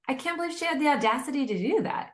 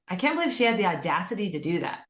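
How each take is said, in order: First: It sounds impressed and admiring. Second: It sounds critical and disapproving. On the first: The boldness is seen as something to celebrate. "wow, like, cool, good for her" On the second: The boldness is seen as a bad thing. "that first version of it"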